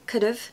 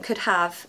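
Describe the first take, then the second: First: The two words are blended into one quick unit. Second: The two words are said fully and separately. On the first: The speaker calls it right. "much better than" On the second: The speaker calls it wrong. "It's much more difficult to say"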